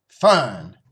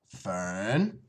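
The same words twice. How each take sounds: First: Loud, falling name; stern father. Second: Gentle. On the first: Father checks his daughter grabbing the axe, stern and loud. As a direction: cut in firmly with the name. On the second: Father stops walking to calm his daughter, gentle. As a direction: say the name gently, coaxing. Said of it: "he said gently". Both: Acted.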